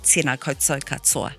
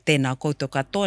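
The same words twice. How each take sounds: First: The t sounds are hard, made at the front. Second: The t sounds are soft, made further back. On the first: The speaker calls it wrong. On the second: The speaker calls it right. "you'll sound a lot better"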